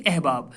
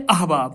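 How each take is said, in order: First: احباب with front e, ehbab; wrong pronunciation. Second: احباب with open a, ahbab; correct pronunciation. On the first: (احباب کو غلط اِحباب، ای کی آواز سے) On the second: (احباب کو اَحباب پڑھیں، زبر کے ساتھ) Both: Shown as a demonstration. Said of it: "نہ کہ احباب".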